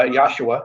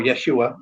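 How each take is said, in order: First: Yahshua said with an open "yah" start; variant pronunciation. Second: Yeshua said with a "yeh" start; alternative pronunciation. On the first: Explaining the angel's name to a co-host, variant pronunciation YAH-shoo-ah. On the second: Offering the name's other form, alternative pronunciation yeh-SHOO-ah. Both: Shown as a demonstration. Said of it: "depending on how you pronounce it".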